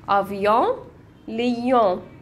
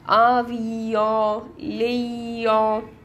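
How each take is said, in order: First: The words are said quickly and naturally. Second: The words are said slowly and carefully.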